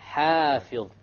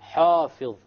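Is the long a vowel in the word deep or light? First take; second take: light; deep. First: The long a vowel sounds light and thin. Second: The long a vowel sounds deep and heavy. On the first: The speaker calls it right. "The alif has to be light" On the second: The speaker calls it wrong. "the alif is made deep. So many people might say hafidh. This is a mistake"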